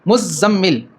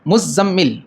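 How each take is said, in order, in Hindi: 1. बीच के व्यंजन लंबे खींचकर बोले जाते हैं, दोहरे। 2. बीच के व्यंजन लंबे खींचकर बोले जाते हैं, दोहरे।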